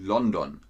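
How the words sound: The name is said with a German pronunciation. "sondern sie sagen London"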